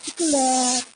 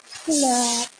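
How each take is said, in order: First: It is said with a sweet, gentle Ilonggo accent. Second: It is said with a sweet, gentle Ilonggo accent.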